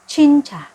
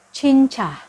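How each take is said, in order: The two takes are said the same way.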